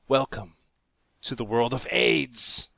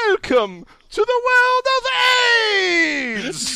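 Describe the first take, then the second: First: It is read out in a plain voice. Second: It is announced in a showy ringmaster voice.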